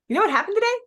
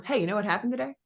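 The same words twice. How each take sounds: First: Much higher, louder, eager question; excited teaser. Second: Said in the usual way. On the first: Shown as a demonstration. Coach demos an excited hook for followers. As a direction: hook them with a bright teasing question. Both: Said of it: "you could do".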